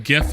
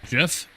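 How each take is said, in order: First: It begins with a hard G sound. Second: It begins with a soft G sound. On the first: The speaker calls it right. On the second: The speaker calls it wrong.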